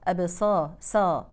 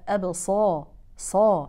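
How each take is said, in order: First: The s sound is light, not emphatic. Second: The s sound is strongly emphatic and heavy. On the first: The speaker calls it wrong. "يقرأوها مرققة" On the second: The speaker calls it right. "حرف مطبق فلابد من تفخيمه بطريقة أقوى"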